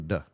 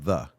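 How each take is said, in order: First: The word begins with a 'd' sound. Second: The word begins with a 'th' sound. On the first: "They say duh" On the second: "they don't pronounce the th hard like we do, like the"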